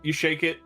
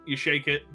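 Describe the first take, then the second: No difference in how they are said.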